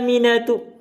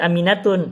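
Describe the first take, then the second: First: The name ends on a plain vowel. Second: The name ends with an added n sound. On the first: The speaker calls it right. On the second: The speaker calls it wrong.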